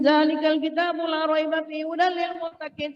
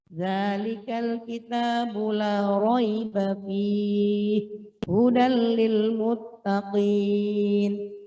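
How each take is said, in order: First: It is recited quickly without careful articulation. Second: It is recited slowly with careful, full articulation. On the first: The only goal is to finish the reading. "Tanpa memperhatikan bacaannya boleh" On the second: Each sound is given its proper due. "dengan penuh tajwid"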